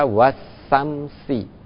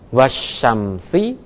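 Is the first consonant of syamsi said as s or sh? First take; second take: s; sh. First: The word is said with a plain s sound. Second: The word is said with an sh sound.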